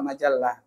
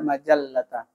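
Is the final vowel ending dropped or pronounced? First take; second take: dropped; pronounced. First: The word ends in a bare h, no final vowel. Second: The word ends with a full t and vowel. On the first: This is fine in casual speech. "Kalau ngomong enggak apa-apa" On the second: This is how it is read aloud formally. "Tapi kalau lagi baca"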